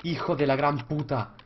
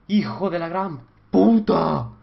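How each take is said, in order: First: Said in the usual way. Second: Slow, loud stretched curse; drawn-out furious curse. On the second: Real, not acted. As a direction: drag out the insult in anger. Repeat, louder and slow.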